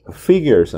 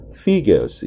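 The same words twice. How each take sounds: First: "figures" as 'fig-yerz', R clearly sounded; R-ful pronunciation. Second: "figures" as 'fig-uhz', R dropped; British pronunciation. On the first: Teacher showing what students won't hear, figures with a sounded R. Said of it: "figures 아니라 figures 이런 식으로". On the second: Teacher showing how British figures will sound, R-less pronunciation. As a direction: drop the R at the end of "figures". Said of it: "끝에 이렇게 아리 발음이 많이 또 죽지요". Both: Shown as a demonstration.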